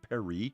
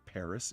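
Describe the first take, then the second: First: It is said the French way, without a final s. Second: It is said the English way, with a final s. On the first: "I can't say it with a French accent, but it's closer" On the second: "why do we say Paris?"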